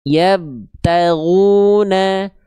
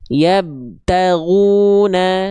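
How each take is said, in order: Both takes have the same delivery.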